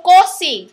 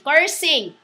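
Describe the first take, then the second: First: "cursing" said as "coh-sing", no r; mispronounced cursing. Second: Said in the usual way. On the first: Real, not acted. Speaker naming another kind of swearing, mispronounced "cursing". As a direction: say "cursing" with an open o for the first vowel. Self-corrects the word just said.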